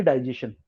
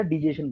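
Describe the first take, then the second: First: डाइजेशन with a long "dai" opening; British pronunciation. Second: डाइजेशन opening with short "di", not "die"; American shortened pronunciation. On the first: Teacher showing how the British say it, "dai" in डाइजेशन. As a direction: say the first syllable of डाइजेशन like "die". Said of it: "ब्रिटिशर बोलेंगे डाइजेशन". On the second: Teacher showing how Americans shorten it, "di" in डाइजेशन. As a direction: shorten the first syllable of डाइजेशन to "di". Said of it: "डाई बोलने के बजाय". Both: Shown as a demonstration.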